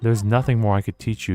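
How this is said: It sounds admiring and congratulating.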